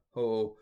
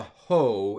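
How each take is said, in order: First: "ho" with a barely heard h; faint breathing. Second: "ho" with a forceful h, louder; strong breathing. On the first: Teacher attempting light rough breathing, faint h. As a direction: soften the h of "ho" almost away. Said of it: "you can hardly, hardly tell that it's there". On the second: Teacher showing an overdone rough breathing, strong h. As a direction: punch a loud, breath-heavy "ho". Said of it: "that strong of a ho". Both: Shown as a demonstration.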